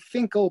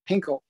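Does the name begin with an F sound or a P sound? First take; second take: F sound; P sound. First: The name begins with an F sound. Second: The name begins with a P sound. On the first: This is the band's real name. The speaker calls it right. "it was actually [name]" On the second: This is how the band members themselves said it. The speaker calls it wrong. "they would pronounce it Pinkle"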